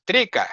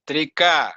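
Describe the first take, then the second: First: Trika short, front-stressed; imitated wrong Trika; other teachers' mispronunciation. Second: Trika with a long, stressed final a; corrected, end-stressed Trika; correct pronunciation. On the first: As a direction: say Trika as TREE-ka, quickly. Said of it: "like some teachers". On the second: Shown as a demonstration. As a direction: say Trika as tri-KA. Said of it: "Not Trika".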